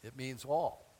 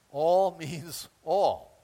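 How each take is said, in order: First: Said in the usual way. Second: "All" slow, "all" hit hard; "all" drawn out with weight; stress on all. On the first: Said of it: "first saying". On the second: Shown as a demonstration. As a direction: lean slowly on "All means all". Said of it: "stressing the word all".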